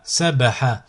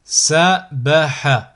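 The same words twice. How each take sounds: First: Syllables joined as one word. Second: Slow, each syllable drawn out separately; split into syllables. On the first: Teacher models a word for learners to repeat, joined in one go. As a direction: run the syllables together without pauses. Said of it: "le mot attaché". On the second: Teacher models a word for learners to repeat, split into syllables. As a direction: cut the word up, pausing between syllables. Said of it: "décomposer le mot". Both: Shown as a demonstration.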